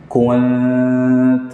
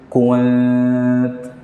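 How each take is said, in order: Both takes have the same delivery.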